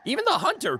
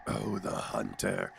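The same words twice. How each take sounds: First: Said in the usual way. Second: Slow, low, quiet character voice; hushed, drawn-out low hunter voice; the hunter's voice. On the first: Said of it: "I'm just losing a lot of the sound". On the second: Shown as a demonstration. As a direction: draw it out low and soft as the hunter. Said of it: "Even the hunter came".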